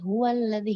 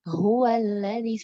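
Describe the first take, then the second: First: It is rushed and the H is barely heard. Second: It is unhurried and the H is clearly heard. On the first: The speaker calls it wrong. "hilang nggak kedengeran" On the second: The speaker calls it right. "Jelaskan huwallazi seperti itu"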